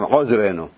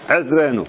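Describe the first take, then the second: First: The first vowel is an 'o' sound. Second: The first vowel is an 'e' sound. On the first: The speaker calls it wrong. "אומרים עוזרנו" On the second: The speaker calls it right. "סגול"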